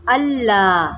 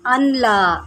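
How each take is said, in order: First: अल्ला with hamza joined to the ल, no न sound; correct pronunciation. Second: अनला with a clear न between अ and ला; demonstrating the error; wrong pronunciation. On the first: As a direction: say अल्ला, not अनला. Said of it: "हमज़ा को लाम के साथ मिलाकर पढ़ना है". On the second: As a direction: show the mistake अनला. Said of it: "तो गलत क्या पढ़ा जाता है". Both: Shown as a demonstration.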